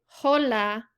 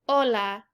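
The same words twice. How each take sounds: First: The word begins with an audible H sound. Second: The word begins directly with the vowel sound. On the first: The speaker calls it wrong. "we don't say hola" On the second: The speaker calls it right. "we just say hola. This is because H is always silent"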